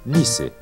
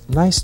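First: The i is pronounced with its Portuguese sound. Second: The i is pronounced with its English sound. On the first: The speaker calls it wrong. "se a gente fosse ler a palavra nice do jeito que se fala em português" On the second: The speaker calls it right. "Quando a gente diz nice to meet you"

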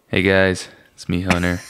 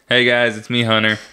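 First: It is said in a close, seductive voice. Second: It is said in a plain, normal voice.

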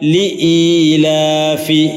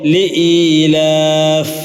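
First: The word ends with a short i vowel. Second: The word ends on the f sound. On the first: The reading continues without stopping. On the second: The reader stops at this word.

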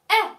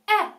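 The two takes are said the same way.

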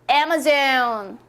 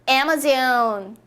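Both takes have the same delivery.

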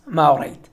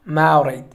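First: The two words are said quickly, run together. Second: The two words are said quickly, run together.

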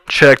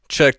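First: A mid-range frequency band is strongly boosted. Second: A mid-range frequency band is cut. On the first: "I'll actually boost this all the way up" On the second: "once I find my frequency, I can cut it"

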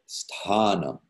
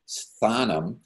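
First: The 'th' is a T with air after it. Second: The 'th' is a soft TH sound. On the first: The speaker calls it right. "but rather sthanam" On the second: The speaker calls it wrong. "it doesn't become a sthanam"

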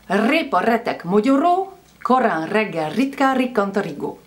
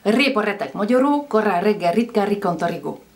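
First: It is said at normal speed. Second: It is said very fast.

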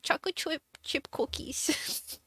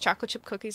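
First: It is said in a cutesy baby-talk voice. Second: It is said in a normal speaking voice.

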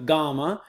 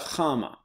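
First: It begins with a hard G sound. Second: It begins with a soft G sound. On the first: The speaker calls it wrong. "It's not a chama or a gamma" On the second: The speaker calls it right. "it has a soft G sound"

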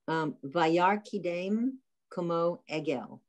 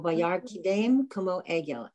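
First: The phrase is spoken slowly and deliberately. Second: The phrase is spoken at normal, quicker speed.

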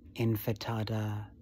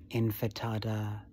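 First: The f sound comes before the t sound. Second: The same.

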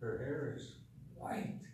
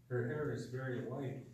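First: White is drawn out with strong emphasis. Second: White is said plainly, without special emphasis.

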